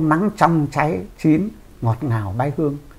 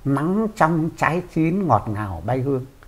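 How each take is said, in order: First: There is a pause after "trái chín". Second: The line runs on with no pause. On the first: The ripe fruit gives off a sweet fragrance. The speaker calls it wrong. "Câu nắng trong trái chín, ngọt ngào bay hương" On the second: The sunshine gives off fragrance from within the ripe fruit. The speaker calls it right. "Tại sao bác không bỏ cái dấu phẩy"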